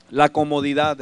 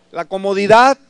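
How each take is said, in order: First: Said in the usual way. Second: Comodidad pushed out louder with a rising end; louder emphatic repeat of comodidad; stress on comodidad. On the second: Shown as a demonstration. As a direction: hammer home the word comodidad.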